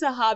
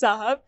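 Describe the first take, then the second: First: It is pronounced like the Arabic word sahab. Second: It is pronounced like the Urdu word sahab. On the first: The word means clouds. The speaker calls it right. "but it's Sahab. It's an Arabic word" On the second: The word is a title of respect. The speaker calls it wrong. "like the Urdu word Sahab"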